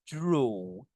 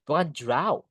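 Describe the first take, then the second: First: The vowel sounds like an O. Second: The vowel sounds like an A. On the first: The speaker calls it right. "A-nya itu kayak dibaca O" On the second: The speaker calls it wrong.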